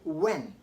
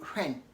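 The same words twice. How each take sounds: First: No h sound is pronounced. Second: An h sound is pronounced. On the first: The speaker calls it right. "Say when ... because H is silent after W" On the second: The speaker calls it wrong. "you don't say when"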